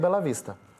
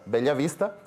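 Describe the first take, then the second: First: The name is said with a Portuguese-style sound. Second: The name is said with a Spanish-style sound. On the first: This is how the Brazilian town is named. "e a cidade do Brasil é" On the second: This is how the Paraguayan town is named. "A minha cidade é Bela Vista, ou melhor"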